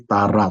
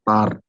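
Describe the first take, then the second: First: The word ends with a vowel sound. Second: The word ends without a vowel sound. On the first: The speaker calls it right. "that is a long A, so it should be Tara" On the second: The speaker calls it wrong. "not Tar"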